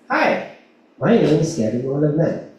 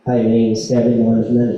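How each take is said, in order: First: It is said warmly, with a smile. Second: It is said flatly, without a smile. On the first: It builds rapport and connection with the listener. The speaker calls it right. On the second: There is no rapport or connection with the listener. The speaker calls it wrong. "walang rapport, walang connection"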